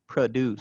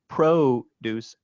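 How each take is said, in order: First: The first vowel is reduced to a schwa. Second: The first vowel is a full 'O' sound. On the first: "and a schwa" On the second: "an alternation between an O"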